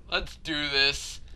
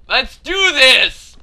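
First: Said in the usual way. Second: Loud, slow rallying cry; psyched-up shout. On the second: Real, not acted. Player rallying before another attempt, determined shout. Psyching self up, louder second take.

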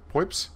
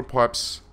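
First: High, mock South African "Pipes?"; South African accent. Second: Said in the usual way. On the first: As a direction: say it with a put-on South African twang. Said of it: "Suddenly I am South African".

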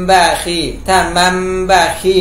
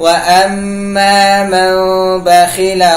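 First: มันบะคี read with the lips pressed, the wrong way. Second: มัน บะคี chanted with the mouth lightly closed, nasal hold; correct iqlab. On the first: Teacher demonstrates the wrong reading of มันบะคี. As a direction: show มันบะคี as the mistake, no iqlab. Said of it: "ผิดเลยนะครับ". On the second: Teacher recites มันบะคี correctly with iqlab, chanted. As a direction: recite มันบะคี closing the lips gently, held two beats. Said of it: "อิกลาบ ปิด แต่ไม่ต้องไป เมมปาก". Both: Shown as a demonstration.

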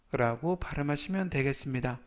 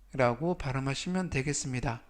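No difference in how they are said.

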